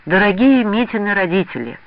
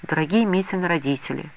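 First: Higher, heartfelt dictation; with feeling. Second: Said in the usual way. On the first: A narrator's reading. Girl dictates a letter to a friend's parents, with feeling. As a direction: dictate it with feeling, pitch lifted on Дорогие. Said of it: "с чувством продиктовала Лида". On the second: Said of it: "начала Нюра".

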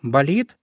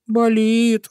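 First: Rising question on Болит. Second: Болит high, long and pitiful; plaintive. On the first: Acted. Friend checks the hare's sore paw, questioning. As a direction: ask Болит with the pitch lifting at the end. Pufik asks about the hurt paw. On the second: A narrator's reading. Hurt little hare answers his friend, plaintive. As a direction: whimper Болит on a held high note. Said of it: "жалобно ответил зайка Петя".

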